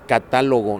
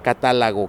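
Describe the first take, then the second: First: The stress is on the second syllable. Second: The stress is on the third syllable. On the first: The speaker calls it right. "la palabra correcta es catálogo" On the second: The speaker calls it wrong. "no catálogo"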